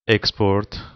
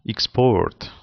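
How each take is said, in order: First: The word carries its noun stress pattern. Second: The word carries its verb stress pattern. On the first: It names a thing. "The first one is the noun" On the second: It names an action. "the second one is the, the verb"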